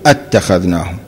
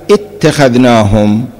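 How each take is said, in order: First: اتخذناهم opened with a clear "a": attakhadhnahum, dropping low; well-known reading. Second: اتخذناهم opened with a short "i": ittakhadhnahum; variant recitation. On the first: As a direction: recite اتخذناهم with an a at the start. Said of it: "والمشهور". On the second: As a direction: slowly recite اتخذناهم with an i at the start. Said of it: "هذه الآية قرأت". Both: Shown as a demonstration.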